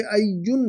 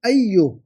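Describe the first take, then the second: First: अय्युन said with the nun ending, as the error; wrong nunation. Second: अय्यु ends on a bare u with no n; correct form, no nunation. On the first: Arabic teacher naming the student's error, अय्युन with the un ending. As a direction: end अय्युन on a clear un. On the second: Teacher giving the correction, अय्यु ending on a bare u. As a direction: cut अय्यु off cleanly after the u. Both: Shown as a demonstration. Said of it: "अय्युन नहीं".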